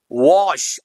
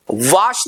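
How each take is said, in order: First: Wash with a rounded o, "wosh"; right pronunciation. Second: Wash with a broad "aa", "vaash"; wrong pronunciation. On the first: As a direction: say वॉश with oval lips. (वॉश में गोल ओ की आवाज़) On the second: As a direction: say वॉश as "vaash". (वॉश को "वाश" जैसा खुले आ से) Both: Shown as a demonstration. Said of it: "वॉश नहीं".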